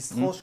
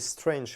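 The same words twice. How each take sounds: First: The word is pronounced with French sounds. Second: The word is pronounced with English sounds. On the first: This is how a young child first read it. "quand on a découvert ça à sept ou huit ans" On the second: This is the original word's real pronunciation. "c'est Strange puisque c'est le mot anglais"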